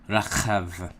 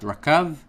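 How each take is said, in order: First: The middle consonant is a throaty kh sound. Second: The middle consonant is a hard k sound. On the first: The speaker calls it right. "you will pronounce it kha" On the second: The speaker calls it wrong. "not rakav"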